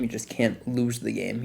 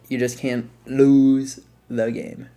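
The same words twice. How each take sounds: First: Said in the usual way. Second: Slow, every word weighted, LOSE falling; slow heavy emphasis on "lose"; slow emphatic repeat. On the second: Real, not acted. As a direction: drag it out to drive home "lose".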